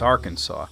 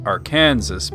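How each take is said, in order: First: It is pronounced differently from the letters. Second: It is pronounced just as the letters spell. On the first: The speaker calls it right. "but it's Arkansas" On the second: The speaker calls it wrong. "it sure as hell looks like it says Arkansas"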